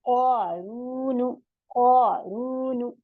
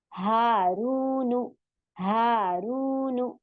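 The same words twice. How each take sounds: First: क़ारून with the क़ा and रू stretched very slowly; slow Quranic reading of क़ारून; drawn recitation. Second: हारूनु with हा and रू each held long, नु quick; very slow madd reading of हारूनु; drawn recitation. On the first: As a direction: pull the long vowels of क़ारून. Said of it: "क़ क्या है?". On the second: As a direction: stretch हा and रू in हारूनु. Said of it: "इस तरीके से।". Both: Shown as a demonstration.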